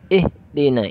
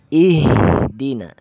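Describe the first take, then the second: First: The h sound is cut off abruptly. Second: The h sound flows out with breath. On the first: The speaker calls it wrong. "Itu namanya syiddah. Tertahannya suara" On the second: The speaker calls it right. "Alirkan suaranya"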